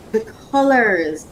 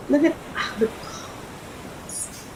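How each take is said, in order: First: Said in the usual way. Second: Very soft, slow, voiceless whisper; awed whisper. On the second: Real, not acted. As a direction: whisper it in wonder, drawn out. Awed first look at vest colors.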